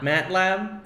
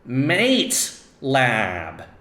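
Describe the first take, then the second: First: The first syllable rhymes with 'cat'. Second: The first syllable rhymes with 'late'. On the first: The speaker calls it wrong. "not MATLAB" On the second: The speaker calls it right.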